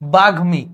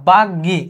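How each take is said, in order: First: The m sound is clearly pronounced after g. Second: The m is dropped and the g is doubled. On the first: The speaker calls it right. "আমি মটাকে আলাদাভাবে উচ্চারণ করতেছি" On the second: The speaker calls it wrong. "সেরকম বলতেছি না"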